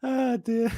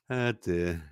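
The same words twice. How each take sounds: First: A squeaky, tickled ah dear; pitched up and fond; high amused sigh. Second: Said in the usual way. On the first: Real, not acted. Host cooing at a funny photo, high and tickled. Reacting to a meme, laughing.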